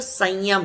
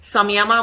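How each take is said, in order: First: The word ends on the final m consonant. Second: The word ends with an added final a vowel. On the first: The speaker calls it right. "लेकिन वो सही शब्द संयम है" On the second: The speaker calls it wrong. "हम संयमा बोल देते हैं क्योंकि वो इंग्लिश में लिखा ऐसे जाता है"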